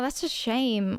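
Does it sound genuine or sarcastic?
genuine. It sounds sincere and sympathetic.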